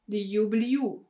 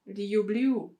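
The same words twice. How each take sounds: First: A separate y glide is inserted after the l. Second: A separate y glide is inserted after the l.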